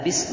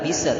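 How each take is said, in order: First: The s flows out smoothly with no bounce. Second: The s ends with a bounced, echoing release. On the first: The speaker calls it right. "mengalir saja" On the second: The speaker calls it wrong. "tidak boleh"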